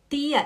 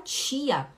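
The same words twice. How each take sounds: First: It is said the Recife way. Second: It is said the Belém do Pará way.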